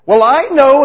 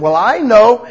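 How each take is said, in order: First: Louder, higher indignant "Well, I know"; more defensive. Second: Loud, high defensive retort; defensive believer. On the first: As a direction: push back harder. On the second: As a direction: snap back like you know it all. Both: Retold or imitated. Believer answering God defensively.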